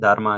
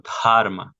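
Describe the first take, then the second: First: The first consonant is plain, without breath. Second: The first consonant has a breathy throat release. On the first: The speaker calls it wrong. "Dharma así simple" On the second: The speaker calls it right. "Se hace como cierto acento desde la garganta"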